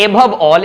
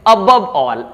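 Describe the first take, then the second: First: "above all" with "above" as AY-buv; wrong pronunciation. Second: "above all" as uh-BUV all; correct pronunciation. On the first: Teacher showing learners the mistake, "above all" as ay-buv all. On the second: Teacher correcting for learners, "above all" with weak "uh" start. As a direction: open "above all" on a short "uh". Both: Shown as a demonstration. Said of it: "not above all".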